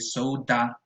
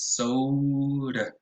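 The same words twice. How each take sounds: First: The final vowel is an open a. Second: The final vowel is a relaxed schwa. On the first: The speaker calls it wrong. "as in an open a" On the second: The speaker calls it right. "and it's soda"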